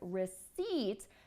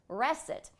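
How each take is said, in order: First: The second syllable has a long vowel. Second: The second syllable has a short vowel. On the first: The speaker calls it right. "we actually have a long I sound" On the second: The speaker calls it wrong. "she was making the second syllable a short vowel sound"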